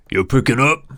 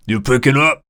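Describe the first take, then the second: First: Impatient call. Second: Louder, higher, fed-up waiter shout; angry yell. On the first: Waiter calling to Preston. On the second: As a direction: yell You picking up? at him. Waiter yelling again. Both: Acted.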